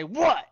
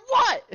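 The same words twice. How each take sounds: First: Loud challenging "What?"; confrontational what. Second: Much higher, louder "What?" topping him; escalated shout. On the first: Road rage standoff at drive-through. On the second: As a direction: squeal "What?" to top the other guy. Escalating the standoff. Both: Retold or imitated.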